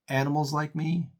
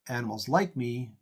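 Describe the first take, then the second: First: The stress falls on the word animals. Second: The stress falls on the word like.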